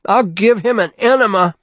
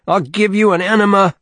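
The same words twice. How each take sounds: First: Much higher, loud scream. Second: Much higher, shouted enema threat; screaming. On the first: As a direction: scream it out of a nightmare. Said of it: "Bruce screamed". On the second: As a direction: scream it at the boy pinned down. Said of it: "he kept screaming". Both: A narrator's reading.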